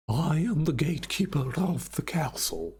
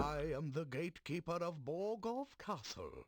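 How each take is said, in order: First: Imitating an Eastern European gatekeeper; Eastern European accent. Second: Vaguely British villain voice; a posh British gatekeeper; British-sounding accent. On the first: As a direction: say it like a Transylvanian count. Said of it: "It's more like a". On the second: Acted. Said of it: "It's more British than anything else".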